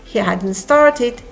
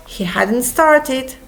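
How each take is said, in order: Both takes have the same delivery.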